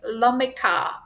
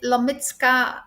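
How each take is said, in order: First: The surname is read with English sounds. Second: The surname is read with Polish sounds. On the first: The speaker calls it wrong. "in English you read it as Lomika" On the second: The speaker calls it right. "It's a very Polish reading of her surname"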